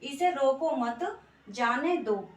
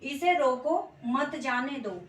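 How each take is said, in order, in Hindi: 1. 'mat' के ठीक बाद अल्प विराम है। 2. 'roko' के ठीक बाद अल्प विराम है। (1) "ये यहाँ पे हमने मत के पीछे लगा दिया" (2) "इसे रोको, यहाँ पे हमने लगा दिया अल्प विराम"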